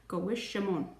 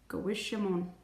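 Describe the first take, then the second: No difference in how they are said.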